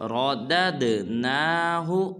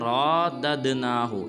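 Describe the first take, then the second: First: The 'ra' vowel is kept short. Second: The 'ra' vowel is drawn out long. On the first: The speaker calls it right. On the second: The speaker calls it wrong.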